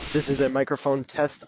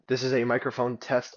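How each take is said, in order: First: It is recorded outdoors with wind and background noise. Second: It is recorded indoors without wind or outdoor noise. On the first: "This is me outside in the outdoors with wind and noise in the background" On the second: "This is what they sound like indoors"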